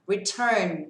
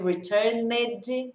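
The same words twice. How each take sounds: First: The ending is only a d sound. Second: The ending is an extra syllable, like 'ned'. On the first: The speaker calls it right. "e sim returned" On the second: The speaker calls it wrong. "ao invés de returned, não tem esse ned"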